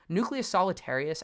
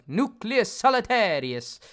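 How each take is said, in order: First: It is said in a plain, normal voice. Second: It is said in a playful mock Italian accent.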